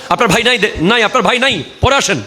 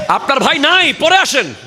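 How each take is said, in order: First: Higher, curt dismissal, acted out; stern brush-off. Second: High-pitched, forceful shout of dismissal; acted harsh rebuff, pitched way up; harsh shouted brush-off. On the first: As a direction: send the visitor away firmly. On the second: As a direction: shout the visitor away, no sweetness at all. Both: Shown as a demonstration. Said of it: "কঠিন কর্কশ কণ্ঠে কথা বলতে হবে".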